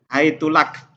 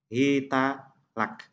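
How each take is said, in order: First: The word begins hai- and the t takes u. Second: The word begins hi- and the t takes a. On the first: "boleh didomahkan taknya" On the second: "boleh dibaca bikasril ha, dengan mengkasrokan ha"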